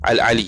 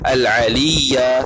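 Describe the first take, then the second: First: The word ends with a bare 'i' sound. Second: The word ends with a voiced 'ya' syllable. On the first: The speaker calls it right. "tak ya, al-ali" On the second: The speaker calls it wrong. "jangan baca al-aliya"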